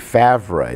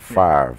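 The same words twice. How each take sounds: First: The name is said to match its written letters. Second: The name is said in its usual, familiar way. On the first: This is how the spelling suggests it should sound. The speaker calls it right. "it should be Favre" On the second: This is how the player himself says it. The speaker calls it wrong. "he doesn't even spell his name the way he pronounces it"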